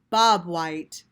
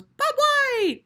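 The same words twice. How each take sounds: First: Said in the usual way. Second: Very high whistled bird call; high ringing bobwhite call. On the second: Acted. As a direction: whistle it out like a quail.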